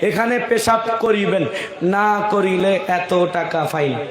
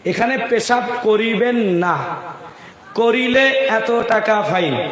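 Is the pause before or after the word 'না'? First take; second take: before; after. First: The pause comes before the word 'না'. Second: The pause comes after the word 'না'.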